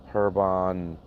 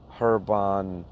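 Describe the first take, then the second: No difference in how they are said.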